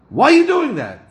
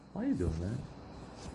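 First: It is said in a harsh, accusatory tone. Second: It is said in a softer, milder tone. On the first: The listener is being blamed. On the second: The listener is being questioned less severely.

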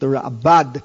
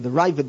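First: The name is said with a b sound. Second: The name is said with a v sound. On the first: This is the form taught in Israel. The speaker calls it right. "The proper pronunciation, as they taught me in Israel, is the Rabbad" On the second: This is the habitual form from yeshiva years. The speaker calls it wrong. "you'll forgive me if I say the Ravid"

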